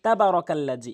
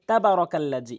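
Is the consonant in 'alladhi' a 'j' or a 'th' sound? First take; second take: J sound; J sound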